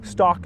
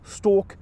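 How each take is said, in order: First: The vowel is an open ah sound. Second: The vowel is a distinct aw sound. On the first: This is a common American pronunciation. "many in America will pronounce them as" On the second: This is the older pronunciation. "Historically they were pronounced"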